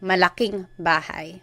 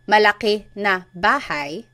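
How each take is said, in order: First: The na is joined onto the adjective. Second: The na is said as a separate word. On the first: "you could just say malaking bahay. So it's a contraction" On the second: "instead of saying malaki na bahay"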